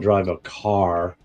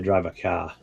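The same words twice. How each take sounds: First: The word car is said with its r. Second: The word car is said without its r. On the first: "I don't drive a car" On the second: "It's the way we say it out here"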